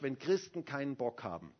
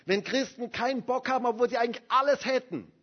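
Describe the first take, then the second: First: Said in the usual way. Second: Wenn Christen keinen Bock haben, higher and louder; preacher hammers the point, higher and louder; emphatic repeat. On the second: Shown as a demonstration. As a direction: repeat it hard to drive it home. Line said again louder.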